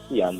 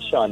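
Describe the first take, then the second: First: The name is pronounced the Irish way. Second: The name is pronounced the American way. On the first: The speaker calls it right. "the real pronunciation is Sion and it's Irish" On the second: The speaker calls it wrong. "A lot of persons um they use the American way of pronouncing it"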